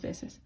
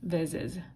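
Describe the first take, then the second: First: The middle consonant is a hissing s sound. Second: The middle consonant is a buzzing z sound. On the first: The speaker calls it right. "That uh, keeps it more of an S sound" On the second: The speaker calls it wrong. "If it stayed as a Z, it would be pronounced more like veces"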